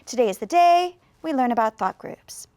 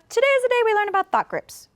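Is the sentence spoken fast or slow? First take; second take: slow; fast. First: The sentence is said slowly with more pauses. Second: The sentence is said quickly with few pauses. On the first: The speaker is talking carefully with a learner. "If I'm speaking maybe just with one student" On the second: The speaker is talking casually with family. "If I was speaking to my family very quickly"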